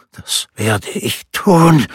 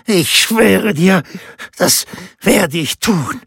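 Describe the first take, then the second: First: Slow, rasping promise, a bit higher; raspy with lust. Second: Much higher, slow, strained rasping oath; rasping vow. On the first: Rinaldo promising Laura murder, slow rasping voice. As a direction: rasp it out, heavy with desire. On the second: Rinaldo swearing to Laura, high strained rasp. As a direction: swear it, voice cracking with desire. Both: A narrator's reading. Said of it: "röchelte er mit vor Verlangen rauer Stimme".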